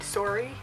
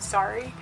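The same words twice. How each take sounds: First: It is said in an imitated Canadian accent. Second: It is said in a plain American accent. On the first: "the way they say them in, in like Canada is like" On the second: "which is about and sorry"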